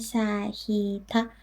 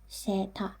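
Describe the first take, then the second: First: The two vowels are said separately, one after another. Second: The two vowels merge into a single vowel sound. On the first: The speaker calls it wrong. "one after the other like that" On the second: The speaker calls it right. "it becomes seta"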